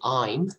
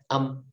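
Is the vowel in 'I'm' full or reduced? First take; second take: full; reduced. First: The vowel glides fully, ending in a y sound. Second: The vowel is short, with no y glide. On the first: "a lot of people say I'm" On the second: "when you speak faster, when it is fluent speech"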